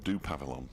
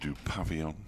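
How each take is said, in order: First: It is said plainly, with no added vowel. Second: It is said with a French-style pronunciation. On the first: The speaker calls it right. "I certainly can" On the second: The speaker calls it wrong. "turning it French"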